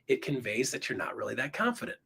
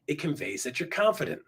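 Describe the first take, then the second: First: "confident" rising like a question, softer; soft, let "confident" lift uncertainly at the end. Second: "confident" falling at the end, softer. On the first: Coach showing unsure delivery, "confident" going up. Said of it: "If you go up". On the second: Coach showing assured delivery, "confident" going down. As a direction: let "confident" drop like a settled statement. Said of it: "If you go down". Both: Shown as a demonstration.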